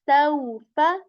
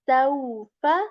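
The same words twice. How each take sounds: The two takes are said the same way.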